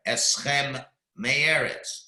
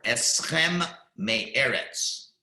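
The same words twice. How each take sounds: First: "Eschem" held, then a break before "me'eretz"; careful separated reading; pause between words. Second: Very slow "Eschem me'eretz" with the M held; deliberate example reading; slow and careful. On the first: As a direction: leave clear space between the words. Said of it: "you've gotta leave a pause". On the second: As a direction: stretch "Eschem" so it doesn't merge with "me'eretz". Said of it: "those are the examples". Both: Shown as a demonstration.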